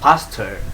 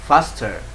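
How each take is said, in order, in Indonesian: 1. Aksen Amerika, huruf R di akhir terdengar jelas. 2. Aksen Amerika, huruf R di akhir terdengar jelas.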